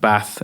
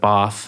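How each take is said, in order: First: It is said with a northern English accent. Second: It is said with a southern English accent.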